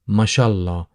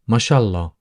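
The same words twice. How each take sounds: First: The phrase is said softened and run together. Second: The phrase is said softened and run together.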